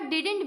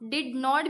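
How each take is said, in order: First: Not is shortened and joined to the verb. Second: Not is said as a separate full word. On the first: "या didn't भी पढ़ सकते" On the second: "इसको हम did not भी पढ़ सकते"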